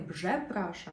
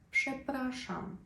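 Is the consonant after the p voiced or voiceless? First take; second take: voiced; voiceless. First: The consonant after p is a voiced zh sound. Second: The consonant after p is a voiceless sh sound. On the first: The speaker calls it wrong. "не «бжепраша», аж язик можна зламати" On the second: The speaker calls it right. "«рз» читати як «ши»"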